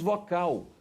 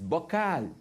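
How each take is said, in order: First: The word starts with a V sound. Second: The word starts with a B sound. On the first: The speaker calls it wrong. "você não diz vocal" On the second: The speaker calls it right. "O V no espanhol tem som de B"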